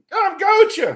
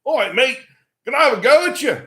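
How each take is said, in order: First: Put-on much higher, loud Aussie accent; insistent repeat in a squeaky mock-Australian accent; imitated Australian kid repeating. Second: Put-on high, loud Australian accent; cocky challenge in a mock Aussie accent; imitated Australian kid. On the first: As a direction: push the Australian challenge up high and loud. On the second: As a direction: play an Australian kid calling someone out. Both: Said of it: "the sort of leader of the, of the group looks at me and he goes".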